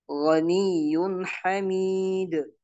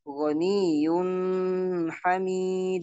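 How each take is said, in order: First: Slow recitation, crisp N ending "ghaniyun"; no hum on "ghaniyun"; correct clear nun. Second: "ghaniyun" drawn out nasally before "hamid"; wrong held nun. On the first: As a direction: go straight from "ghaniyun" into "hamid". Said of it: "Tidak boleh membacanya". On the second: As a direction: hum long at the end of "ghaniyun". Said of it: "Ini tidak benar". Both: Shown as a demonstration.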